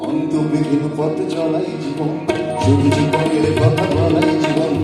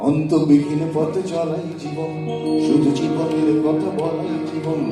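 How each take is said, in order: No difference in how they are said.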